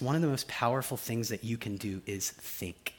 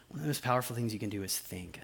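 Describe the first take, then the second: First: Said in the usual way. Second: Quick hushed whisper. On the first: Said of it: "repeats it in a whisper". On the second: Shown as a demonstration. Pastor repeating the key point to the congregation, soft whisper. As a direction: whisper it like a secret to lean in for. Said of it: "repeated line whispered".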